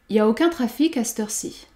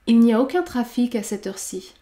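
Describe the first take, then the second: First: 'Il n'y a' is shortened to 'y a'. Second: 'Il n'y a' is said in full. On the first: "on peut supprimer le sujet il ... Il nous reste donc y a" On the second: "On peut dire"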